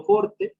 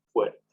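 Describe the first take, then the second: First: "forte" pitched very high and louder, a plain "o" with no diphthong; old Latin form. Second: Said in the usual way. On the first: Shown as a demonstration. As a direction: sing out "forte" high, keeping a pure "o". ("forte" muy agudo, con "o" pura sin diptongo) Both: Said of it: "en vez de ser forte, ahora es fuerte".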